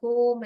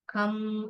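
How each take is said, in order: First: The vowel is an 'oh' sound. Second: The vowel is a short 'uh' sound. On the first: The speaker calls it wrong. "ऐसे नहीं पढ़ते हम" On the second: The speaker calls it right. "ये सब sight words हैं"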